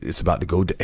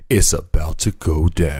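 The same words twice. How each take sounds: First: Said in the usual way. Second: Slow, drawn-out mock doom announcement; mock-dramatic warning. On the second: Host warns of the end days, mock-dramatic. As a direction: stretch it out like a playful omen.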